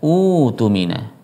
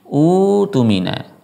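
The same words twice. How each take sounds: First: The word starts fresh with an initial u vowel. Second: The word starts fresh with an initial u vowel.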